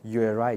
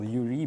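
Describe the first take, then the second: First: The word is pronounced the English way. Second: The word is pronounced the Russian way. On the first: "like in English it will be U R I, just different pronunciation" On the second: "in Russian we usually call this variable U R I"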